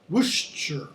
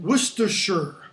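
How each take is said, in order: First: The unstressed syllables are reduced, British style. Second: Every syllable is fully pronounced, American style.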